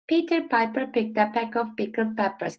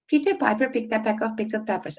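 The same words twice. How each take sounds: First: It is said at a slow pace. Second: It is said at a faster pace. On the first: "one time slowly" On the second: "now I'll try saying it a bit faster"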